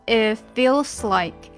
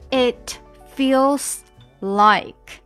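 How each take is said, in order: First: The t is dropped and the words run together. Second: The t at the end of it is pronounced. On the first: "我们要连起来读，这个t 就不见了" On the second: "本来呢是It feels like"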